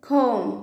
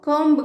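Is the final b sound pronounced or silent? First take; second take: silent; pronounced. First: The word ends on m, b silent. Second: The word ends with an audible b sound. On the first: The speaker calls it right. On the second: The speaker calls it wrong.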